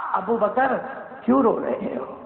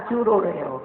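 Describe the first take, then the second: First: The Prophet's gentle question. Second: Said in the usual way. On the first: Acted. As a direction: ask gently, lightly voiced. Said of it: "اور کیا فرمایا؟". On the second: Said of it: "فرمایا".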